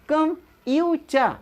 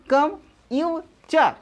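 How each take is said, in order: The two takes are said the same way.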